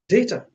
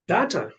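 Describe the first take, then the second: First: It is said in a non-American accent. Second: It is said in a North American accent.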